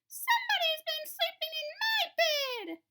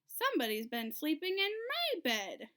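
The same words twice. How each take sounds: First: It is said in a loud, shrill little voice. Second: It is said in a medium, grumbling voice.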